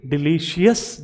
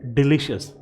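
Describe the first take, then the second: First: डिलीशियस spelt out as "di-li-shi-yas"; wrong pronunciation. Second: डिलीशियस as "di-li-shus"; right pronunciation. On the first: Teacher showing students the mistake to avoid. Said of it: "आज के बाद आप इसे डिलीशियस नहीं पढ़ना". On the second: Teacher giving students the correct form. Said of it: "हमें पढ़ना है इसे डिलीशियस". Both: Shown as a demonstration.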